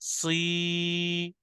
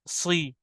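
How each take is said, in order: First: The vowel is drawn out long. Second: The vowel is short and not drawn out. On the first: "तो फिर हमें इसको खींचना पड़ेगा।" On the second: "हमने इसको खींचना ही नहीं है।"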